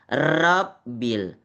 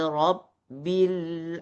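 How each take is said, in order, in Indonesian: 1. R-nya digetarkan dengan banyak ketukan berulang. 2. R-nya tebal, hanya satu ketukan. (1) "Jadi bukan Rabbil. Rab itu sudah banyak pengulangan" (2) "Tapi kalau di atas ro"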